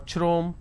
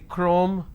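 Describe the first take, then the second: First: The word starts with a ch sound. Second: The word starts with a k sound. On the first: The speaker calls it wrong. "I do not say chromium or chrome" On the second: The speaker calls it right. "I say chrome"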